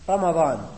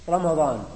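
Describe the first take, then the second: Both takes have the same delivery.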